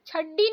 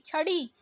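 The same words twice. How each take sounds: First: छड्डी with hard double ड; wrong doubled D. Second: छड़ी with light flapped ड़; correct flapped ड़. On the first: Teacher showing learners the mistake, hard छड्डी. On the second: Teacher correcting learners, flapped छड़ी. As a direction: flick the ड़ in छड़ी. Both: Shown as a demonstration. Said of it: "नहीं".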